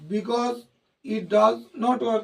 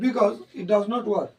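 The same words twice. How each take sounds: First: The words come out separately with breaks between them. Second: The words run together in one smooth flow. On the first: The speaker calls it wrong. "এরকম বলছো কেন?" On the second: The speaker calls it right. "একবারে বলতে হবে"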